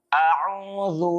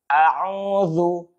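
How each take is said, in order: No difference in how they are said.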